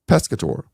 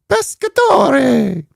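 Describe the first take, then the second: First: It is said plainly, with no put-on accent. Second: It is said in an exaggerated Italian accent.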